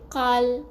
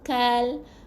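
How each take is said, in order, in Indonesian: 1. Konsonan pertama tebal dan dalam. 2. Konsonan pertama ringan dan tipis. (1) "Tak boleh qal. Tu huruf uh, tebal pula eh" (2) "Kita nak baca nipis"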